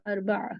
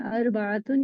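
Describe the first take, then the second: First: The word stops short without the -tun ending. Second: The word ends with a full -tun ending. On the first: It is read as if stopping there. "अगर आप रुकने के हाल में पढ़ेंगी तो अरबा सुनाई देगा" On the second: It is read with full vowel endings. "अगर जबर जेर पेश के साथ पढ़ रही हैं तो अरबातुन"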